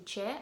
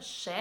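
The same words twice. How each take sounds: First: "che" said with a ch in place of sh; "che" begins with ch, not sh; southern che. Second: "she" said with a hushing sh; "she" begins with sh; northern she. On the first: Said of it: "they say". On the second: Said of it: "instead of". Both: Shown as a demonstration.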